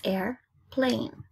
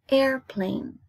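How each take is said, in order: First: AIRPLANE slowly split into air, plane; syllable by syllable. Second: Said in the usual way. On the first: Shown as a demonstration. Teacher counting two syllables for pupils, syllable by syllable. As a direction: break "airplane" in two with a pause. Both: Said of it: "Two syllables".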